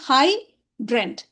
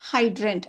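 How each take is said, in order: First: It is split into two separate syllables. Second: It is said as one smooth word.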